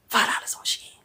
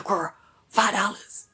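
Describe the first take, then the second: First: Hushed whispered price. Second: Said in the usual way. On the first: Pretend. To the ladies, a whispered shopping secret. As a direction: breathe it out as a secret.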